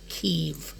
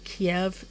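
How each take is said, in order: First: The word rhymes with 'leave'. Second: The word does not rhyme with 'leave'. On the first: The speaker calls it right. "Like leave, but Kiev" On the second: The speaker calls it wrong. "A lot of people call it Kiev. That is not how you pronounce it"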